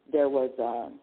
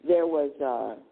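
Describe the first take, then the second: No difference in how they are said.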